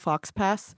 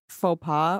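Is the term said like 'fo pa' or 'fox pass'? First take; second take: fox pass; fo pa. First: The x and s are sounded, like 'fox pass'. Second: It is said with silent letters, like 'fo pa'.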